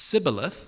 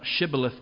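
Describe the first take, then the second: First: The word begins with a plain s sound. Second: The word begins with an sh sound. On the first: The speaker belongs to the group that cannot say the sound. The speaker calls it wrong. "instead they say s" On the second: The speaker belongs to the group that can say the sound. The speaker calls it right. "The Ephraimites can't say sh"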